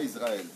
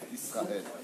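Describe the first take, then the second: First: The middle consonant is a buzzing z sound. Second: The middle consonant is a hissing s sound. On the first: The speaker calls it wrong. "C'est pas un Zaïn" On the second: The speaker calls it right. "c'est un S"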